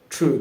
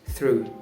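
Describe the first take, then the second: First: The th sound is replaced by another sound. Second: A clear th sound is pronounced. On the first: The speaker calls it wrong. "If I don't pronounce the th sound" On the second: The speaker calls it right. "when I pronounce the th sound correctly"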